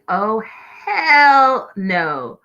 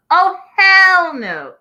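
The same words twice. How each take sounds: First: Raised, louder hell no; mock yell at the TV, half earnest; retold yell at the TV. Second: Much higher, louder, slow hell no; full yell at the TV. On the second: Retold or imitated. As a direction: drag out hell no as an outraged yell. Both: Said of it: "This is the part that I screamed at the T V".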